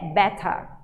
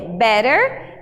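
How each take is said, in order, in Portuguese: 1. O t é um som de t claro. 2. O t soa como um r rápido. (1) "no inglês britânico é better" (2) "No inglês americano é better"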